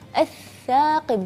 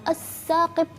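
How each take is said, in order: First: The consonant sounds like 'th' in 'think'. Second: The consonant sounds like a plain 's'. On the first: The speaker calls it right. "Jadi ats-tsaqib" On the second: The speaker calls it wrong. "jangan as-saqib"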